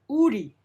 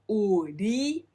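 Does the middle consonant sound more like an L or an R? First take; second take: R; L. First: The middle consonant sounds like an R. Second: The middle consonant sounds like an L. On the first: The speaker calls it right. "but uri, more like an R sound" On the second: The speaker calls it wrong. "not uri"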